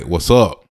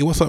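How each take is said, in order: First: It is said in a hostile, confrontational tone. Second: It is said in a friendly, relaxed tone. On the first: It challenges someone about their problem with the speaker. "Like, what's your problem with me?" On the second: It is a casual greeting asking how someone is. "hey, what's up, man? Like, how you doing?"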